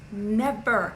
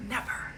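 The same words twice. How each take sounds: First: "Never" said firm and falling at normal level. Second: "Never" said softly, almost under the breath; quiet. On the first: Insisting to her audience, a firm falling "Never". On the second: Insisting to her audience, a soft quiet "Never". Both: Shown as a demonstration. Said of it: "It's never about the money".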